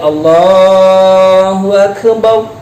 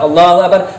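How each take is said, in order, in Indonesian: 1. Dibaca dengan pelan dan berlagu. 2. Dibaca dengan cepat dan tanpa lagu.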